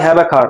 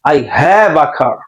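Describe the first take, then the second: First: The vowel in have is short. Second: The vowel in have is long. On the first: The speaker calls it wrong. "অনেকে বলে" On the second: The speaker calls it right. "Long a sound হবে"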